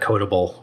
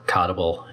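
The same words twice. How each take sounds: First: The first syllable sounds like 'code'. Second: The first syllable sounds like 'cod'.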